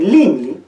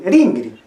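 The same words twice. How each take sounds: First: "lingli" with clear l sounds; "lingli", l in place of r; L variant. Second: "ringri" with r sounds; "ringri", r in place of l; R variant. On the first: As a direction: say "lingli" with L in both syllables. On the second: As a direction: say "ringri" with R in both syllables. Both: Shown as a demonstration. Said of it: "la R o la L y la N no son fonemas".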